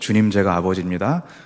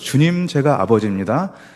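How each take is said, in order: First: It is said at a normal volume. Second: It is said with a raised, louder voice.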